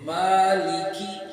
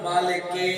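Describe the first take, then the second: First: The word ends with a long 'kee' sound. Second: The word ends with a short 'ke' sound. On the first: The speaker calls it right. "सही है मालिकी" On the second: The speaker calls it wrong. "गलत, ये पढ़ते ना मालिक के"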